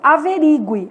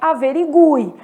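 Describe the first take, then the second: First: The U vowel is weak and unstressed. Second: The U vowel is strong and stressed. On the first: The speaker calls it wrong. "Nós é que temos por hábito falar" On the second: The speaker calls it right. "Mas a palavra correta é averigue"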